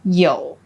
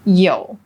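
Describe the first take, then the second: The two takes are said the same way.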